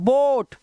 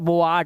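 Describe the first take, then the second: First: The vowel is one single 'oh' sound. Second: The vowel is split into two sounds. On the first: The speaker calls it right. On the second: The speaker calls it wrong.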